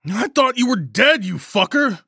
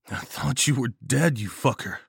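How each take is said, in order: First: High, loud outburst of fury over relief; furious yell. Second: Understated amusement, no yelling; still chuckling. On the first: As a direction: yell it, pitched way up in outrage. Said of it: "I yelled, fury surging over the relief". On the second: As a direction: say it lightly, as if winding down from laughter. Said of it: "still chuckling". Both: A narrator's reading.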